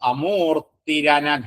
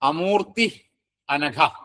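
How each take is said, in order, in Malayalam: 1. ഈ രണ്ട് വാക്കുകളെ ർ ചേർത്താണ് ബന്ധിപ്പിക്കുന്നത്. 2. ഈ രണ്ട് വാക്കുകളും ർ ചേർക്കാതെയാണ് പറയുന്നത്.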